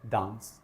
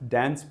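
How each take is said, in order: First: The word is said with a British accent. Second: The word is said with an American accent. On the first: "British call it डांस" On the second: "American डांस pronounce करते हैं इसको"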